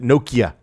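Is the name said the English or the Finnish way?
English. It is said the way English speakers say it. "the English pronounce it Nokia"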